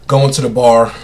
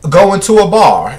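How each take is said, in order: First: It is said flat and stiff, like Mary J. Blige. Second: It is said with lively, dramatic expression.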